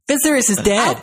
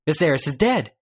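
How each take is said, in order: First: It is read in an exaggerated whiny voice. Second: It is read quickly in a plain voice. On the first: "I'm making her sound as much like a whiny bitch as I can" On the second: "Sorry, I was reading quickly"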